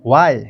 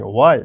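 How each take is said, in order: First: वाई said louder as a plain "why"; the wrong way: वाई as "vai"; wrong sound. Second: वाई louder with a rounded "w" glide; right way: वाई with lips rounded; correct sound. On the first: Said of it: "वाई नहीं". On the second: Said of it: "इस तरीके से". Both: Shown as a demonstration.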